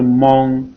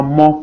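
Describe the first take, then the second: First: "mon" closed on a ringing ng, like "mong"; n final ajouté. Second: Said in the usual way. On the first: Shown as a demonstration. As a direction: say "mon" as "mong", nasal ending held. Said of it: "pour dire mon". (« mon » prononcé « mong », avec n final) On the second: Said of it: "on met N devant mon".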